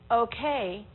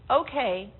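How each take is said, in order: First: It is said in an uncertain, questioning tone. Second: It is said in an agreeable, accepting tone. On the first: There is doubt or a question. "The second one, I'm not sure, I got a question" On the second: It is all right. "The first, okay, it's all right"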